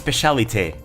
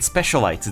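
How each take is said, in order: First: The name is said with French-style sounds. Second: The name is said with English-style sounds. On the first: The speaker calls it right. "the correct pronunciation is in French" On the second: The speaker calls it wrong. "I've been pronouncing it wrong this entire time"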